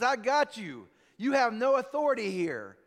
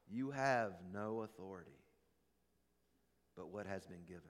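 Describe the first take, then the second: First: Put-on louder, a touch smug, a half-hearted drunk voice; mock drunk gloating. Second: Solemn hush. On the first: Drunk driver taunting the trooper, louder with mock gloating. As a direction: crow it like a drunk who thinks he's won. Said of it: "And he says". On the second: A narrator's reading. Preacher echoing Jesus to the congregation, soft and solemn. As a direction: drop to a hush to land the truth.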